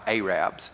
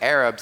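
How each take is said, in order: First: It uses the local Alabama pronunciation of the word. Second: It uses the standard pronunciation of the word. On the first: The speaker calls it wrong. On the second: The speaker calls it right. "I said Arabs"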